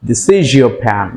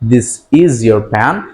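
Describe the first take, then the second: First: The sound before 'your' blends into an sh sound. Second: The sound before 'your' stays a plain s/z. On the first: The speaker calls it right. "And this sounds become like শ sounds" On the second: The speaker calls it wrong. "Not"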